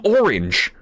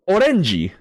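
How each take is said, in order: First: It is said with an English pronunciation. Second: It is said with a Japanese pronunciation.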